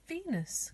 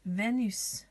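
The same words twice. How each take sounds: First: Said in the usual way. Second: "Venus" said the French way, vay-NÜS; French pronunciation. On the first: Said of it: "Now we have Venus". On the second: Shown as a demonstration. Teacher showing children the accent on the E, "Venus" pronounced vay-NÜS. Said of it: "little accent on the E".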